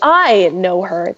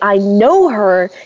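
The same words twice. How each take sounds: First: The stress is on the word 'I'. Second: The stress is on the word 'know'. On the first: It is me, not someone else, who knows her. "The emphasis is on the I" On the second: I do know her, as opposed to not knowing her. "you emphasize the no"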